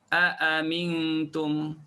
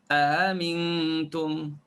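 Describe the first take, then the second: Both takes have the same delivery.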